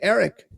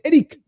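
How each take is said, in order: First: The name is said with an English pronunciation. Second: The name is said with a Chilean Spanish pronunciation. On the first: "in Chile they don't say Eric" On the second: "they say Eric"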